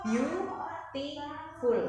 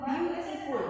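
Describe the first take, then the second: First: Beautiful spoken very slowly, beau-ti-ful split into its three syllables; beautiful pelan per suku kata. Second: Said in the usual way. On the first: Shown as a demonstration. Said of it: "itu tiga suku kata". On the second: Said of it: "Jadi misalnya seperti ini".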